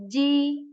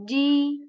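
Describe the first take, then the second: No difference in how they are said.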